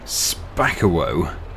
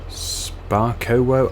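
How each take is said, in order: First: The name is pronounced in a harsh way. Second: The name is pronounced in a softer way.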